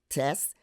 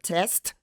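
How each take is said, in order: First: A final consonant of the cluster is dropped. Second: The final consonant cluster is fully pronounced. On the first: "we will leave off a consonant" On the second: "consonant clusters are pronounced"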